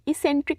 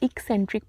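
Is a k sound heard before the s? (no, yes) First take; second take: no; yes. First: It begins with no k sound before the s. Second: It begins with a k sound before the s. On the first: The speaker calls it wrong. "इसेंट्रिक नहीं" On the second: The speaker calls it right. "इसको pronounce करेंगे हम इक्सेंट्रिक"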